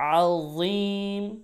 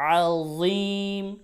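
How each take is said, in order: Both takes have the same delivery.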